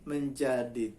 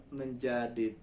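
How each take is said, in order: The two takes are said the same way.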